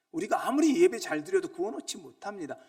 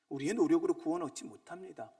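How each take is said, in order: First: Louder sermon emphasis on 아무리; preacher building to the climax; rising preaching. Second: Said in the usual way. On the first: Acted. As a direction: stretch 아무리 long and loud.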